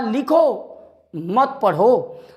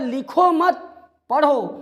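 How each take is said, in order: First: There is a pause after लिखो. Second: There is a pause after मत.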